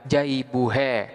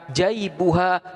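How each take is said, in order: First: The final vowel leans toward an e sound. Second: The final vowel is a plain open a. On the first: The speaker calls it wrong. "tidak boleh dibaca jaibuhe" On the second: The speaker calls it right. "tetap dibaca jaibuha"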